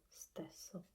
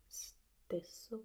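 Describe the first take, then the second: First: Stesso with an open e, as in 'bet'; stesso, e wide rather than closed. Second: Stesso with a closed 'ay'-like e; stesso, e closed rather than open. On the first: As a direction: open up the first vowel of stesso. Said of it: "It could be also stesso". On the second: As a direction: say stesso with a tight, high first vowel. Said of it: "this should be stesso". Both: Shown as a demonstration.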